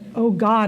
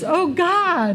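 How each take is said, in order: First: It is said in a weary, groaning tone. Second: It is said in a glad, excited tone. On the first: Another day feels like a burden. The speaker calls it wrong. "instead of" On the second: Another day feels like a gift. The speaker calls it right.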